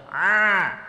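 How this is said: The vowel stays squeezed and strained in the throat. The speaker calls it wrong. "Ini saya kasih contoh yang salah"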